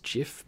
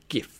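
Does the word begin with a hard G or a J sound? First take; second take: J sound; hard G. First: The word begins with a soft J sound. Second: The word begins with a hard G sound. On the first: "I know it's should be pronounced GIF" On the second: "I call them GIFs because it starts with a G. ... I just like the sound of GIF better"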